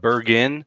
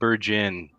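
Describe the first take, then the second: First: It is said the way most outsiders say it. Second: It is said the local Western New York way. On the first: This is how people elsewhere say the name. "Most of you would call that Bergen" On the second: This is how people in the town say the name. "here in Western New York, we pronounce that Bergen"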